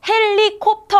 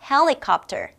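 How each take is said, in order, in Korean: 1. 한국식 음절로 평평하게 말했어요. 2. 영어식 굴린 소리로 말했어요. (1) "헬리콥터 아니라니까요" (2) "발음을 조금 더 굴려줘야 돼요"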